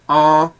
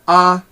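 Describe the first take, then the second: First: The vowel is nasal, not high in pitch. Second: The vowel is high in pitch, not nasal. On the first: "the short form nasal tone" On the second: "the short form high tone"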